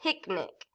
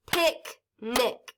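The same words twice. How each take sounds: First: Said in the usual way. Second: PIC, NIC, with a gap between; split into syllables. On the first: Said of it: "Listen to the word picnic". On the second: Shown as a demonstration. Teacher clapping syllables for class, "Picnic" in two pieces. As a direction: break "Picnic" into two separate beats. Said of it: "I can break it into two pieces".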